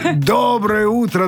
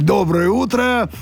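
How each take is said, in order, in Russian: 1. Сказано наигранным, театральным голосом. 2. Сказано естественным голосом говорящего.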